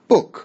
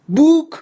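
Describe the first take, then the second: First: The vowel is short. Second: The vowel is long. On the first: The speaker calls it right. "پس این میشه اوی کوتاه" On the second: The speaker calls it wrong. "بوک غلطه"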